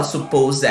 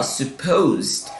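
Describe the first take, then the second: First: "supposed" in three syllables, suh-POH-zed; wrong -ed ending. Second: "supposed" as two syllables, suh-POHZD; correct -ed ending. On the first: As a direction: mispronounce "supposed" with a full "ed" syllable. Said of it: "a gente não fala". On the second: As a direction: end "supposed" on consonants, no extra vowel. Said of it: "A gente fala". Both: Shown as a demonstration.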